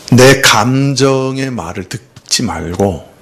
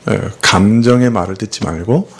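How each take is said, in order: First: 내 감정의 말을 듣지 말고 said slowly, leaning on 내; slow emphasis. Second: Said in the usual way. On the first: Shown as a demonstration. Pastor urging the congregation, slow emphatic 내 감정의 말을 듣지 말고. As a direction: spell out 내 감정의 말을 듣지 말고 word by word.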